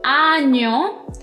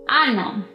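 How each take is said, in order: First: The middle consonant is a palatal 'ny' sound. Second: The middle consonant is a plain 'n' sound. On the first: The speaker calls it right. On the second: The speaker calls it wrong.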